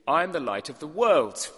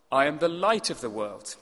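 First: The word "world" lifted and held; emphasis landing on "world", falling after; stress on world. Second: The word "light" carried as the key word; emphasis landing on "light"; stress on light. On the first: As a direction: lean on "world" in "I am the light of the world". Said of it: "The second emphasis could be". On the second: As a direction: lean on "light" in "I am the light of the world". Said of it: "emphasis could legitimately be in three places". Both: Shown as a demonstration.

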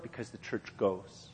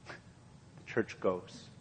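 First: Said in the usual way. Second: Slow, breathy whisper of the repeat; hushed whisper. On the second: Acted. Preacher hushes the repeated line to the congregation, slow whisper. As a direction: let it sink in, barely voiced.

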